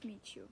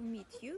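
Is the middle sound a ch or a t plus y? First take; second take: ch; t plus y. First: The t and y merge into a ch sound. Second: The t and y are pronounced separately.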